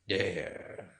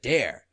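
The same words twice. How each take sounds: First: It sounds cool and indifferent. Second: It sounds eager and keen. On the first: The speaker does not care what happens. The speaker calls it right. "like this" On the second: The speaker really wants the dare. The speaker calls it wrong. "Not like that"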